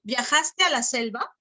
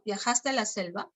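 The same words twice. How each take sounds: First: "Viajaste a la selva" with the voice lifting on "a" and rising to the end; rising tune. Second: Said in the usual way. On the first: Shown as a demonstration. Teacher reads the example sentence to the class, with a rising tune. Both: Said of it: "Aquí puede haber tono".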